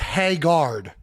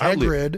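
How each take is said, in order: First: The name is pronounced like the word haggard. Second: The name is pronounced as Hagrid. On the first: The speaker calls it wrong. "I had always thought it was Haggard" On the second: The speaker calls it right. "but it's Hagrid"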